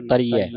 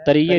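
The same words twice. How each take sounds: First: ਤਰੀਐ ending in an open "-iai"; final open ai. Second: ਤਰੀਐ ending in a close "-ie"; final e. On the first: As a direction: open the last vowel of ਤਰੀਐ to "ai". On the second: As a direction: demonstrate ਤਰੀਐ mispronounced as "tarie". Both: Shown as a demonstration. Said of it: "ਤਰੀਐ ਨਹੀਂ ਪੜ੍ਹਨਾ".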